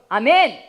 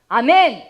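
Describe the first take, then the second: No difference in how they are said.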